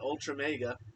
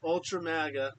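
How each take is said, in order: First: The last word starts with a 'meg' sound. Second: The last word starts with a 'mag' sound. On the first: The speaker calls it wrong. "called it ultra mega" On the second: The speaker calls it right. "she can't even say it correctly"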